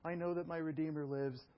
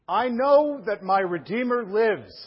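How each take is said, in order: First: It is said flatly, without real conviction. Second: It is said earnestly, with strong conviction. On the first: The words are recited without meaning them. The speaker calls it wrong. "not in some sort of, you know" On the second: The words are meant and believed. The speaker calls it right. "I want you to read it with knowledge"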